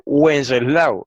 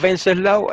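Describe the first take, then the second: First: Said in the usual way. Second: Wenceslao with a German V, venseslao; German pronunciation. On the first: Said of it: "En español se dice". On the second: Shown as a demonstration. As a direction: say Wenceslao starting with a V sound, German style. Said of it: "Los alemanes la pronuncian".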